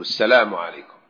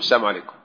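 First: The L sound is pronounced clearly. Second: The L sound is dropped or barely heard. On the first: The speaker calls it right. "فينبغي أن يبينوا اللام" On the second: The speaker calls it wrong. "هكذا أسمع يقول السلام عليكم، فيحذفون اللام أو لا تكاد تظهر"

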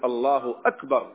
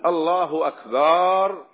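First: The vowel after the b is short and clipped. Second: The vowel after the b is drawn out long. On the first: It states that God is greatest. The speaker calls it right. "فليجزم" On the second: It turns the word into a plural meaning drums. The speaker calls it wrong. "ينطق بالتكبير على نحو كفري"

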